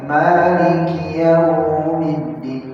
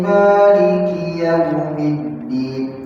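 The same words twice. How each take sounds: First: A vowel is drawn out long. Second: The vowels are kept short, not drawn out. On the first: The speaker calls it wrong. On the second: The speaker calls it right.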